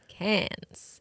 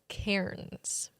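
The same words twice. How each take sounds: First: It is said with the R silent. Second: It is said with the R sounded. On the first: "For the Aussies" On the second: "For Canadians"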